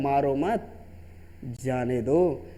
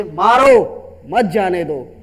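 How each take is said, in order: First: Low, soft "मारो मत", long pause, slow "जाने दो"; pause after मत. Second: Loud, drawn-out "मारो", then "मत जाने दो"; pause after मारो. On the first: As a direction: spare him: मारो मत together, break, जाने दो. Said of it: "पहला वाला सेंटेंस कहता है". (धीमे से "मारो मत", रुककर "जाने दो") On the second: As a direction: order it: punch मारो, break, मत जाने दो. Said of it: "दूसरा सेंटेंस किसी की जान को". (ज़ोर से खींचकर "मारो", फिर "मत जाने दो") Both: Shown as a demonstration.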